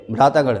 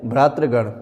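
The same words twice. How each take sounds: First: भ्रातागण with long "taa" in the middle; wrong form. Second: भ्रातृगण with "tri/tra" cluster before gan; correct form. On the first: Teacher shows a common error, भ्रातागण with "taa". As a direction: say भ्रातागण as bhraataa-gan. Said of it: "जो कि गलत है". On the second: Teacher corrects the class, भ्रातृगण with r after t. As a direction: sound the r in the middle of भ्रातृगण. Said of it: "सही है". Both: Shown as a demonstration.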